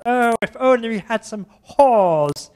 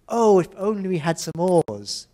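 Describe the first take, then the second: First: Put-on French accent. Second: Said in the usual way. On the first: Teacher imitates the French student in a slow, loud French accent. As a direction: ham up the French student's slip. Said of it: "the student was French". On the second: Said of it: "one of them had to say".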